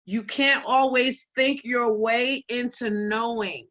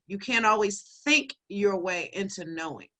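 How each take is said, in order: First: "can't" leaned on, words drawn out slowly; slow key takeaway. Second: "think" set apart and stressed, the rest lower; emphatic repeat. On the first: Host reading out what she wrote down, slow and deliberate. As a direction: spell it out slowly, weight on "can't". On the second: Host repeating her written takeaway for listeners, stressing "think". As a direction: lean hard on "think", then let it settle. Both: Shown as a demonstration. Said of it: "I'm gonna say that again".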